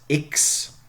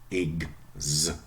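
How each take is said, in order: First: The prefix has a voiceless ks sound. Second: The prefix has a voiced gz sound. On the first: "One voiceless" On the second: "and one voiced"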